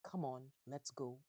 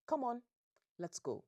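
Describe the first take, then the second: First: Milder quoted father's command; toned-down echo of a father's order; African father voice. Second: Loud, high commanding bark; stern African dad ordering everyone out; African father voice. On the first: Retold or imitated. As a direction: lightly imitate a firm African dad. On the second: Acted. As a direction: order them out as a no-nonsense father. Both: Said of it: "in African father voice".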